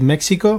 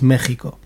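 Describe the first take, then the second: First: It is pronounced the English way. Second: It is pronounced the Spanish way. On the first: "like you guys say Mexico" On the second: "In Spanish, ... for us it's Mexico"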